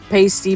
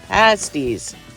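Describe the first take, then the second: First: The first syllable sounds like 'paste'. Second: The first syllable sounds like 'past'. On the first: The speaker calls it wrong. "I say it wrong every time" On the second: The speaker calls it right. "Past. It's like in the past"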